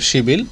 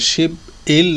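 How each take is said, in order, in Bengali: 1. ব্যঞ্জনটি সহজে পরের স্বরধ্বনিতে মিশে যায়। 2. দুটি অংশ আলাদাভাবে, জোড় ছাড়া বলা হয়। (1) "ডাইরেক্ট উচ্চারণ হবে হলো শিবিল" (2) "শিব ইল না হয়ে"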